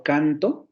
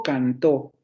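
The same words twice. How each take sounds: First: "canto" with the weight on CAN-; stress on first syllable. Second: "cantó" with the weight on the final -tó; stress on last syllable. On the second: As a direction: hit the second syllable of "cantó", can-TÓ. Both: Shown as a demonstration. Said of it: "vean la diferencia".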